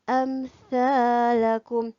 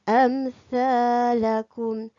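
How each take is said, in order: The two takes are said the same way.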